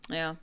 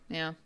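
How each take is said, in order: Both takes have the same delivery.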